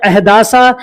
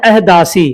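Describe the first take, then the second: First: अहदासा with a final long aa; aa-ending variant. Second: अहदासी with a final long ee; ee-ending variant. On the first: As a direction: add an aa after the s in अहदासा. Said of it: "कोई कहता है अहदासा". (अंत में आ वाला अहदासा) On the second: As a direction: add an ee after the s in अहदासी. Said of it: "कोई कहता है अहदासी". (अंत में ई वाला अहदासी) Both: Shown as a demonstration.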